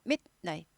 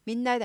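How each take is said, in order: First: Midnight split as mit, night; right staccato midnight. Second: Midnight slurred into min-night; no break inside midnight; wrong blended midnight. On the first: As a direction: stop short after mid in midnight. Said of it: "아니고 midnight". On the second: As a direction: run midnight on through a long n. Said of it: "midnight 아니고 midnight". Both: Shown as a demonstration.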